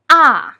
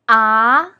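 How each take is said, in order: First: It is said with the fourth tone. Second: It is said with the second tone. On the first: "With the fourth tone" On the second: "With the second tone"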